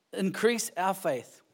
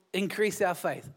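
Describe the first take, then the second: First: "Increase" stressed and drawn out slowly; slow, weighty plea. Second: Said in the usual way. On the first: Shown as a demonstration. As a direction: let "Increase our faith" land slow with weight on "Increase". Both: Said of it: "I think that was the greatest line".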